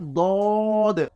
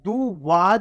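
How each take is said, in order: First: The lips stay unrounded, with no w sound. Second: The lips round, making a w sound. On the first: The speaker calls it right. "ये है दौद" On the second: The speaker calls it wrong. "वाओ की आवाज़ निकालते हैं, इसको मुँह को गोल करते हैं। दुवाद नहीं है ये"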